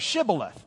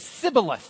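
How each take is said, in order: First: The word begins with an sh sound. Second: The word begins with an s sound. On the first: The speaker is not from Ephraim. The speaker calls it right. "instead of Shibboleth" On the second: The speaker is from Ephraim. The speaker calls it wrong. "they don't have the S-H in Ephraim. So they would say Sibboleth"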